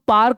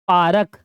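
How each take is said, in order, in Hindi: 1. r और k बिना किसी स्वर के आपस में जुड़ जाते हैं। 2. एक अतिरिक्त स्वर r और k को अलग कर देता है। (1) "जबकि वो पार्क होता है" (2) "वो नहीं होता पारक"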